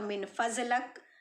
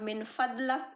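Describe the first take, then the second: First: The middle consonant is a z sound. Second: The middle consonant is a d sound. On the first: "बहुत सारे लोग ज्वाद पढ़ते हैं" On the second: "better होगा कि आप मिन फदलक इस तरीके से बोलने की प्रैक्टिस कीजिए"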